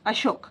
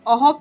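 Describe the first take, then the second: First: The middle consonant is a sh sound. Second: The middle consonant is an h sound. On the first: It follows the English spelling of the name. "तो इसको अशोक नाम से ही बुलाया जाता है" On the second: It follows the usual reading rule. "अहोक SMS में आपको ऐसे लिखना है"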